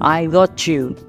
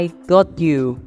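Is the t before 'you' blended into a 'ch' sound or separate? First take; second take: blended; separate. First: The t and 'you' blend into a 'ch' sound. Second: The t and 'you' are said separately.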